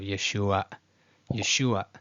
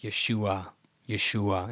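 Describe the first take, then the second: First: Yeshua cut short after the last ah; glottal stop ending. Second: Plain ye-SHU-a, Yeshua without a catch; no glottal stop. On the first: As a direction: catch the throat at the end of Yeshua. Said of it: "That ayin is supposed to be a pause". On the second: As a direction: let the last ah of Yeshua fade, uncut. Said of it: "not treated as a glottal stop". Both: Shown as a demonstration.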